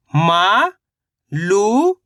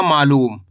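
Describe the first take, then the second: First: मा and लू each drawn out and rising; sound by sound. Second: Said in the usual way. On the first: Shown as a demonstration. Teacher sounding out a word for learners, syllable by syllable. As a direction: stretch मा ... लू with a pause between. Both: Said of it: "और मा मिलके बन जाएगा".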